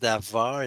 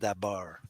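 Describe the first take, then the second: First: The middle consonant is a V sound. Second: The middle consonant is a B sound. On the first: The speaker calls it right. "you pronounce Davar" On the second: The speaker calls it wrong. "and not Dabar"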